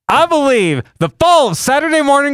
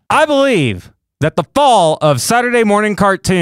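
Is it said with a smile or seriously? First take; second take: smiling; serious. First: It is said while smiling. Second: It is said seriously, without smiling.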